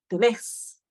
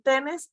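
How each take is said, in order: First: The stress falls on the last syllable. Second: The stress falls on the first syllable. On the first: The speaker calls it right. "sino tenés, ... La fuerza de la pronunciación donde está el acento" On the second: The speaker calls it wrong. "no vamos a decir tenés"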